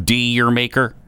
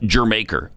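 First: The first syllable sounds like 'dire'. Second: The first syllable sounds like 'jer'. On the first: The speaker calls it wrong. "A lot of people pronounce that every which way" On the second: The speaker calls it right. "It's Jermaker"

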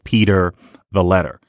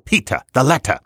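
First: The r sounds after vowels are pronounced. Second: The r sounds after vowels are dropped. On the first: It is ordinary American speech. "instead of" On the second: It imitates an r-less, stagey style of speech. "An old imitation of her used to go"

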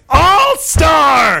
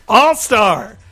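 First: It is said loudly and forcefully. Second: It is said calmly at normal volume.

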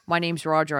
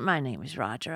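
First: It sounds like a man's put-on voice. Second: It sounds like an old lady's voice.

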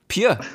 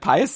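First: The name ends with no S sound. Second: The name ends with an audible S sound. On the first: The speaker calls it right. "the S at the end is silent" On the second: The speaker calls it wrong. "that's not actually how you pronounce his name"

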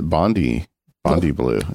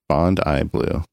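First: Bondi does not end with an 'eye' sound. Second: Bondi ends with an 'eye' sound. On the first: The speaker calls it wrong. "I've always pronounced it Bondi blue. I think I got it wrong" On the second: The speaker calls it right. "Like James Bond, and then I. EYE"

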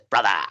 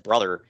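First: It is said in a thick regional accent. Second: It is said in a plain, unaccented way. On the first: "like he's Kevin Sullivan or something" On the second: "he talks normal"

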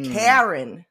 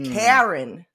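First: The name is said in a New Jersey accent. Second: The name is said in a New Jersey accent.

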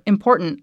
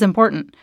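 First: The word is said in a put-on valley-girl voice. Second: The word is said quickly and casually. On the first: The speaker calls it wrong. "like I was trying to be like a valley girl" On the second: The speaker calls it right. "I think you just say it quickly"

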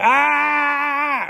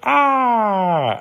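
First: The cry stops abruptly without fading at the end. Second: The cry trails off and fades at the end.

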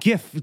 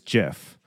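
First: It begins with a hard G sound. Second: It begins with a soft J sound. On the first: It matches the word graphical in the name. The speaker calls it right. "So it GIF, graphical, it just makes sense" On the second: This is the creators' official pronunciation. The speaker calls it wrong. "The creators of the format say that it's GIF"

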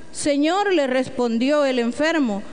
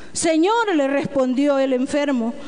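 Both takes have the same delivery.

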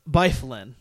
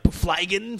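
First: The name starts with a 'by' sound. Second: The name starts with a 'fly' sound. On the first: The speaker calls it right. "and it's Byflin" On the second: The speaker calls it wrong. "the one I kept saying was like Flygen"

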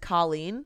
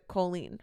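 First: The first syllable does not sound like 'coal'. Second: The first syllable sounds like 'coal'. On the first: This is the usual way of saying the name. "the normal pronunciation is Colleen" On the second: This is how one family says the name. "my family pronounces it Colleen"

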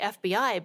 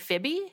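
First: Each letter is said separately. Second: It is said as a single word. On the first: "I say FBI" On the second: "apparently some people say FIBI"

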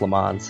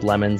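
First: It sounds like the French name Le Mans. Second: It sounds like the English word lemons. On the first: This is the family's real pronunciation. The speaker calls it right. "my last name is actually pronounced Le Mans" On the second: This is how coaches and friends say it. The speaker calls it wrong. "coaches just said lemons"

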